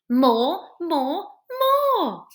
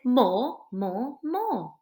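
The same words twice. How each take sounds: First: The words are said in a loud voice. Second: The words are said at a normal volume.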